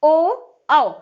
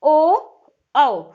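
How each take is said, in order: First: ओ and औ said again plainly; lip vowels repeated. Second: ओ said loud and round, औ after it; lip vowels demo. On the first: Teacher repeating ओ and औ for the class. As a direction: repeat ओ and औ once more. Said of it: "कंठ से और होंठ से". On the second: Teacher voicing ओ and औ for students to copy. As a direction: round the lips on ओ and औ. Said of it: "देखिए आप बोलिए". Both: Shown as a demonstration.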